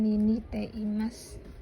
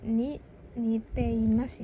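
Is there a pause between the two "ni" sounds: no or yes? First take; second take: no; yes. First: The two ni run together without a pause. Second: There is a pause between the two ni. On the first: The speaker calls it wrong. "bukan ni ni teimasu" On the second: The speaker calls it right. "Dibacanya itu ni ni teimasu ya, ... Ada jedanya"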